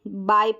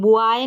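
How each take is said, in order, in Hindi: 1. यह एक ही अक्षर जैसा सुनाई देता है, 'bye'। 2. इसमें 'eye' से पहले एक अतिरिक्त 'oo' ध्वनि है। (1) "बाय पढ़ रहे हैं" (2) "बुआए नहीं पढ़ रहे हम"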